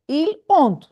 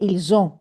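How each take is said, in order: First: The final S is silent before the vowel. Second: The S is sounded and linked to the vowel. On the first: "normally we should say il ont" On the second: "we use this phenomenon in pronunciation, which is called liaison, and we say ils ont"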